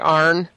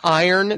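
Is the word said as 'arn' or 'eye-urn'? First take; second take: arn; eye-urn. First: It is said as 'arn' with one syllable. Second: It is said as 'eye-urn' with two syllables. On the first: This is the strong local dialect pronunciation. "they say Arn. Like A-R-N" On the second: This is the standard pronunciation. "Instead of saying iron"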